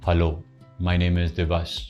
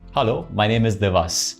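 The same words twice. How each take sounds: First: It is said flatly, without a smile. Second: It is said warmly, with a smile.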